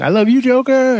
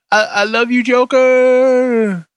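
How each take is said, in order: First: High, gushing catchphrase; catchphrase declaration. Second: High, gushing I love you; mock love declaration. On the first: Shown as a demonstration. Host coining his new catchphrase, high and gushing. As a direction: sing out the new catchphrase lovingly. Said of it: "that's gonna be my new thing". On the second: Host gushing to the Joker, high and swooning. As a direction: swoon over the Joker in a raised voice.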